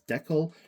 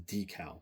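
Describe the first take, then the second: First: The word is said the Canadian way. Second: The word is said the American way. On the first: "I'm Canadian, so I pronounce it as decal" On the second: "our American neighbors who pronounce it as decal"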